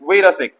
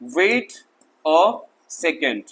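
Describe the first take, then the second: First: The last word is cut short to one syllable. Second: The last word is said in full, two syllables. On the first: "छोटा कर दिया" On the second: "actually ये है वेट अ सेकेंड"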